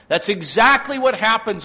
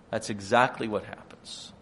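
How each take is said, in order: First: High, loud and emphatic; loud preaching. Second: Said in the usual way. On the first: Acted. Preacher driving home the fall to the congregation, loud. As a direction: hammer the point home. Repeated line, loud then quiet.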